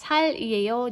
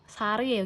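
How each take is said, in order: First: It is split, with an L sound before a break. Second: It is linked smoothly, with an R sound between vowels. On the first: The speaker calls it wrong. "jangan dipatah" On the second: The speaker calls it right. "tapi sarieyo"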